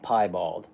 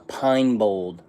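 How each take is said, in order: First: The word begins with 'pie' and ends 'bald'. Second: The word begins with 'pine' and ends 'bowled'. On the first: The speaker calls it right. "Pie, like pie, and then bald" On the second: The speaker calls it wrong. "I've been saying that wrong the entire time"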